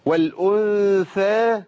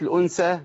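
First: والأنثى chanted high and slow, th as in think; clear thaa. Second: الأنثى with s in place of th; thaa as seen. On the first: Teacher models the verse word, high slow chant with clear th in والأنثى. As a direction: hold the nasal n, then th in والأنثى. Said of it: "لازم أبين الفرق بين الثاء". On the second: Teacher shows the mistake, s for th in الأنثى. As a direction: say الأنثى as al-unsa. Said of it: "لو قلت الأنثى ما تنفعش". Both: Shown as a demonstration.

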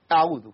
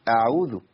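First: أعوذ with a quick, clipped ayn; ayn cut short. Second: أعوذ with the ayn flowing a moment; ayn given its time. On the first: Teacher shows what to avoid, clipped ayn in أعوذ. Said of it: "لا تقطع في العين". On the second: Teacher shows the correct way, flowing ayn in أعوذ. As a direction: let the ayn in أعوذ sound before moving on. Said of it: "العين فيها زمن". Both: Shown as a demonstration.

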